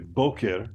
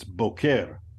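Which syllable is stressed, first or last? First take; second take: first; last. First: The stress is on the first syllable. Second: The stress is on the last syllable. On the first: It means morning. "I didn't say boker, morning" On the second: It means cowboy. "The emphasis is on the last syllable"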